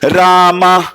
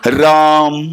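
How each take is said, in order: First: The lips open after m, adding a final vowel. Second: The word ends with the lips kept closed. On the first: The speaker calls it wrong. "खुलते ही आ का डंडा लग जाएगा। रामा, आ लग गया।" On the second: The speaker calls it right. "मुंह बंद रहे"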